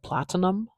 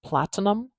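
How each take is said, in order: First: The middle vowel is a full clear vowel. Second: The middle vowel is a full clear vowel.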